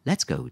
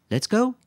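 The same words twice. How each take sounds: First: "let's go" as a settled statement, falling; compassionate smile. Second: LET'S GO lifted very high as a question. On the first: Lisa agrees to leave, "let's go" with compassionate smile. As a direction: say "let's go" kindly, near usual pitch. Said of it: "dit Lisa avec un sourire de compassion". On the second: Quentin asks Lisa whether to leave, "Let's go" as question. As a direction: ask "Let's go" with a loud rising end. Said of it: "demanda-t-il". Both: A narrator's reading.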